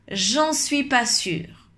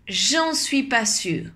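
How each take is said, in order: No difference in how they are said.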